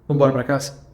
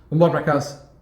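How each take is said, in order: No difference in how they are said.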